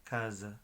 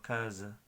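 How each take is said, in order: First: The s is a soft buzzing z sound. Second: The same.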